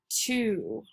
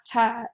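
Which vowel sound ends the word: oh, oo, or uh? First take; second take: oo; uh. First: The word ends with a long 'oo' vowel. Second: The word ends with a short 'uh' vowel. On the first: The speaker calls it right. "it's the long U sound" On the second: The speaker calls it wrong. "if it was the short U"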